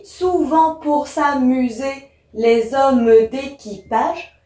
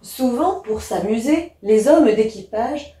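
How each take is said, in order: First: Slow, syllable-by-syllable demonstration; verse drawn out beat by beat; counting syllables. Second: Said in the usual way. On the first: Shown as a demonstration. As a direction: split "souvent pour s'amuser, les hommes d'équipage" into slow, separate syllables. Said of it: "j'ai un vers de douze syllabes". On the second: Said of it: "je vais déjà commencer par lire les textes".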